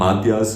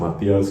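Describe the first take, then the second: First: The name is said in a plain English-style way. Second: The name is said in a Spanish-style way. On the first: The name has no accent mark. The speaker calls it right. "I'm gonna call him Matias" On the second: The name is treated as accented. The speaker calls it wrong. "instead of Matias because he doesn't got the accent"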